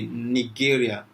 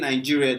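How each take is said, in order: First: It is pronounced the Russian way. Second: It is pronounced the English way. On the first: Russian listeners understand it. The speaker calls it right. "when you answer this way, say Nigeria" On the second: Russian listeners might not understand it. The speaker calls it wrong. "If we say Nigeria, they might not really get it"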